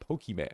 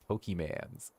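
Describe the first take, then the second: First: The word ends with a plain 'mon' sound. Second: The word ends with a plural 'mans' sound. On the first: The speaker calls it right. "say it right" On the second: The speaker calls it wrong. "Pokemans is not how it's said"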